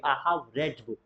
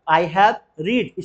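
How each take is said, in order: First: "read" said like "red", short e; softly, "read" sounding like the colour red; past-tense pronunciation. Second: "read" said like "reed", long ee; slowly, "read" with a long ee sound; wrong present-tense pronunciation. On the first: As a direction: say "read" to rhyme with "bed". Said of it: "pronunciation would be changed". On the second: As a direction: say "read" to rhyme with "need". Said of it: "इसे रीड नहीं पढ़ेंगे". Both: Shown as a demonstration.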